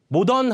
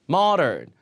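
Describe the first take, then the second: First: It is said as Korean loanword 모던. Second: It is said with English pronunciation. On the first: The speaker calls it wrong. "모던 하면 아예 못 알아들어요" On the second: The speaker calls it right. "이것도 앞에 강세"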